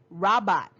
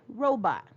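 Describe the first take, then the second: First: The first vowel is a short sound. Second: The first vowel is a long sound. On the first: The speaker calls it wrong. "we wouldn't say robot" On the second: The speaker calls it right. "We say robot"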